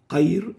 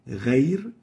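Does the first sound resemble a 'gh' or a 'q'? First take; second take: q; gh. First: It starts with a hard q sound. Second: It starts with a gargled gh sound. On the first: The speaker calls it wrong. "قير is wrong" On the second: The speaker calls it right. "غير is right"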